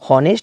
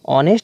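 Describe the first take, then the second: First: The word begins with an h sound. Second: The word begins with a vowel sound. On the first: The speaker calls it wrong. "हॉनेस्ट नहीं पढ़ते हैं" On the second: The speaker calls it right. "इसको ऑनेस्ट पढ़ते हैं"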